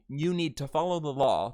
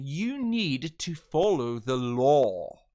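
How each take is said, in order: First: The final vowel is short, American-style. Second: The final vowel is drawn out, British-style.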